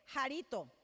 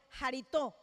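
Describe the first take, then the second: First: The stress is not on the final syllable. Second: The stress is on the final syllable. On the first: The speaker calls it wrong. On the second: The speaker calls it right.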